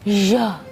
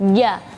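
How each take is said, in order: First: The j comes out with an extra puff of air. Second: The j comes out with no puff of air. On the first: The speaker calls it wrong. "ada angin yang berlebihan" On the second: The speaker calls it right. "tidak ada angin sama sekali"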